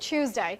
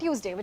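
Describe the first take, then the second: First: It begins with a 'ch' sound. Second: It begins with a plain 't' sound. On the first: "British की, ... वो च की sound आती है" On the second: "normal Indian accent, अपना neutral"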